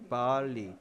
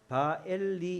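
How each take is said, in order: First: It has a slightly lengthened first vowel. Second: It has a separate 'e' vowel in the middle. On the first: The speaker calls it right. "약간 길게 발리" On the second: The speaker calls it wrong. "원래는 바엘리 이렇게 발음을 안 해요"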